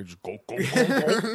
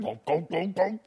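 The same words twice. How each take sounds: First: Mock chugging noise, rising high on the last go; chanted gulps like downing a beer; playful drinking noise; glugging sound effect. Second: High mock chugging noise; silly drinking sound; glugging sound effect. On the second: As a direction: chant the gulps up high like downing a beer. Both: Shown as a demonstration. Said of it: "make sound effects like that".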